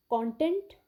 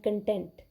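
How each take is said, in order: First: CONTENT with stress on the first syllable, KON-tent; noun pronunciation. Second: CONTENT with stress on the second syllable, kuhn-TENT; verb pronunciation. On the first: Teacher contrasting two words for students, noun stress on CONTENT's first syllable. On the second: Teacher contrasting two words for students, verb stress on CONTENT's second syllable. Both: Shown as a demonstration. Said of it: "the pronunciation is different".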